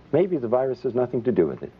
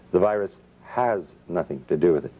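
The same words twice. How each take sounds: First: Said in the usual way. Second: HAS stressed and set apart by a pause; emphatic certainty. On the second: Real, not acted. Speaker correcting his own maybe for the audience, stress on "has".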